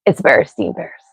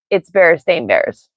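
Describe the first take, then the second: First: "bears staying bears" with STEEN in the middle, lower; steen pronunciation. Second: "bears staying bears" with STAIN in the middle, slow; stain pronunciation. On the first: Streamer insisting on her remembered name, "staying" said as STEEN. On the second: Streamer rejecting the official name, "staying" said as STAIN. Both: Shown as a demonstration. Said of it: "you will never convince me that".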